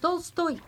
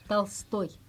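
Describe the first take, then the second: First: The first vowel is a full O. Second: The first vowel sounds like A. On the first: The speaker calls it wrong. "Vous dites Tolstoy, mais non" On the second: The speaker calls it right. "c'est parce que l'accent est sur toy"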